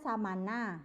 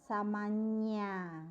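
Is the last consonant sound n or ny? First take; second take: n; ny. First: The last consonant is a plain n sound. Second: The last consonant is an ny sound. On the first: The speaker calls it wrong. "harusnya samana ya kan" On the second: The speaker calls it right. "karena N-nya ada cacingnya di atas, itu jadinya samanya"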